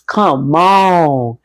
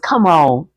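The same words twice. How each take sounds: First: It is said imitating Meta's voice. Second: It is said in the reader's plain voice.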